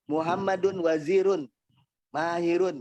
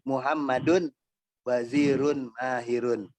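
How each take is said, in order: First: There is no pause after the first word. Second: There is a pause after the first word. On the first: The speaker calls it wrong. "itu kurang pas" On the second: The speaker calls it right.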